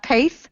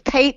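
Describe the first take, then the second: First: The name ends with a th sound. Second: The name ends with a t sound. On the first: The speaker calls it wrong. "not Paith" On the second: The speaker calls it right. "it's Pate"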